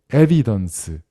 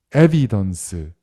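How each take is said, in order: Both takes have the same delivery.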